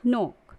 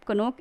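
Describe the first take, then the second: First: "नोक" starting on N; one syllable "नोक", no opening K; silent K. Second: "कनोक" with K before the N; two syllables ka-NOK in "कनोक"; K wrongly sounded. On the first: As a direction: drop the first K in "नोक". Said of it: "हम इसे पढ़ेंगे". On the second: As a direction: voice the first K of "कनोक". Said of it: "is wrong pronunciation". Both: Shown as a demonstration.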